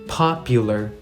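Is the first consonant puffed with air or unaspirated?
puffed. The p is released with a puff of air.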